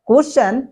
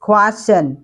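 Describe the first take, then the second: First: The k is plain, without a puff of air. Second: The k has a strong puff of air. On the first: The speaker calls it wrong. "It's not question" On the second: The speaker calls it right. "You have to say খ sound"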